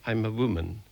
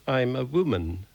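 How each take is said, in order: First: Meek and humble. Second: Indignant retort. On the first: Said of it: "I said humbly". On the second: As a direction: protest it indignantly. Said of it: "I retorted indignantly". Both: A narrator's reading.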